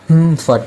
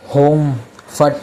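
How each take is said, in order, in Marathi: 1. पहिला अक्षर बंद ओठांनी निघणारा हुंकार आहे, म्हणजे 'hum'. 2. पहिल्या अक्षरात उघडा, गोलसर 'ओ' स्वर आहे. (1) "हुम फट आहे. म्हणजे होठ तुमचे बंद असतील" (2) "तो होम फट नाही आहे"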